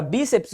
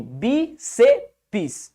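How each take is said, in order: First: Said in the usual way. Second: "Bíceps" split into three beats, bi-se-pis; syllable by syllable. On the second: Shown as a demonstration. Teacher showing separation by pronunciation, "Bíceps" broken into bi-se-pis. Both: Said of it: "ela é feita pela pronúncia".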